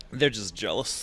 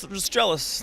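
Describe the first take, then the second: First: Said in the usual way. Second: Higher, smug "They're just jealous"; mock smug. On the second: Shown as a demonstration. Actor smugly dismissing crew who pelt him with candy. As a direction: brush off the throwers with mock pride.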